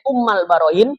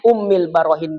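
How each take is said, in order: First: The first word ends with an a vowel. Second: The first word ends with an i vowel. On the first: "Ummal Barohin boleh" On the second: "Ummil Barohin boleh"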